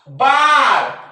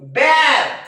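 First: The vowel is a long open 'ah' sound. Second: The vowel is a short front 'a' sound. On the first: The speaker calls it right. "या येचा उच्चार त्या प्रकारच्या spelling मध्ये आ होतो" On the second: The speaker calls it wrong. "ज्या विद्यार्थ्यांना हा नियम माहित नाही ते काय म्हणतील"

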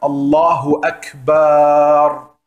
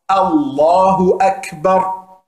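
First: The last vowel is drawn out long. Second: The last vowel is kept short. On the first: The speaker calls it wrong. "am Ende es lang zu ziehen" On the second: The speaker calls it right. "Deswegen bitte aufpassen"

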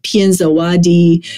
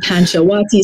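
First: The name is said with a Burmese pronunciation. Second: The name is said with a familiar non-Burmese pronunciation. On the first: "in Burmese, it would be like Pienzawadi" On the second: "the pronunciation I was more familiar with"

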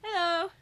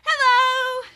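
First: It is said flatly, without enthusiasm. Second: It is said with more enthusiasm.

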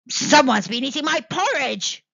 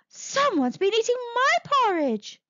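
First: It is growled in a deep voice. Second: It is said in a medium voice.

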